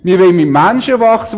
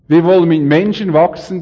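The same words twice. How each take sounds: First: It is spoken in a regional dialect. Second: It is spoken in standard German.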